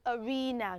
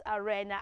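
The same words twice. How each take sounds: First: "arena" as "uh-REE-nuh"; long ee in "arena"; correct pronunciation. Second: "arena" as "uh-REN-uh", lower; short e in "arena", pitched down; wrong pronunciation. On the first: Teacher recapping after spelling it, correct pronunciation. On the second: Teacher contrasting with the right way, wrong pronunciation. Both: Shown as a demonstration. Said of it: "not arena".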